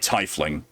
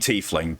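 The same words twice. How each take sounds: First: The word is pronounced the English way. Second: The word is pronounced the German way. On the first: "but I've heard it said in this game already" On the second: "If you know anything about German pronunciation, it's supposed to be tiefling"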